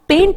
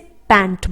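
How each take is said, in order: First: The vowel sounds like the one in 'pen'. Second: The vowel sounds like the one in 'pan'. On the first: The speaker calls it wrong. "इसे पेंट नहीं बोला जाएगा" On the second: The speaker calls it right. "इसे पैंट बोला जाएगा"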